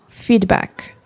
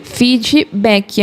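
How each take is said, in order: First: "Feedback" in English, no extra vowels, ending dry on the k; English pronunciation. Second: "Feedback" said the Brazilian way, fid-ji-bé-ki, with a strong i at the end; Brazilian pronunciation. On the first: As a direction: cut "Feedback" off sharply at the final k. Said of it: "O correto é terminar o som no K. E aí fica seco". ("Feedback" em inglês, seco, terminando no K)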